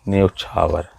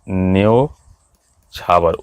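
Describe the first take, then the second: First: The first vowel is the closer 'o' sound. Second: The first vowel is the open 'au' sound. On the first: The speaker calls it right. "इसका सही जो होगा ओ की मात्रा होती है" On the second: The speaker calls it wrong. "ये गलत है।"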